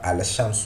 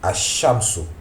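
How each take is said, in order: First: The 'l' is pronounced before the 'sh'. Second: The 'l' is dropped and the 'sh' is doubled. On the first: The speaker calls it wrong. "ça ne se prononce pas al-shamsu" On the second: The speaker calls it right. "mais Ashamsu. On appuie sur le shin"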